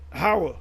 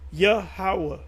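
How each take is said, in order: First: The name is slurred, with its opening sound blurred. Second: The name is said carefully, every sound fully pronounced. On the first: The speaker is lazy with the name. The speaker calls it wrong. "some of y'all say Howah" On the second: The speaker pronounces the name properly. The speaker calls it right. "You gotta pronounce everything"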